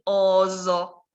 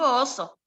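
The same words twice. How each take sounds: First: The middle consonant is a buzzing z. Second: The middle consonant is a hissing s. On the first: The speaker calls it wrong. "no voy a decir oso" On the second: The speaker calls it right. "digo oso"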